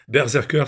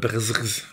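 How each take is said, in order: First: The word is said in full, ending in 'ker'. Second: The word is clipped short, ending in a buzzing sound.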